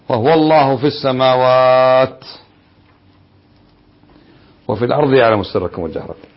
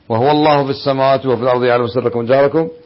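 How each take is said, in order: First: A pause breaks the phrase partway through. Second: The phrase runs on without a pause. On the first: The verse is read to give a different meaning. "فالوقف هنا تعطي معنى آخر" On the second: God is the one worshipped in the heavens and the earth. "إذا وصلت"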